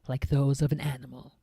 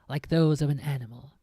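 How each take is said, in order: The two takes are said the same way.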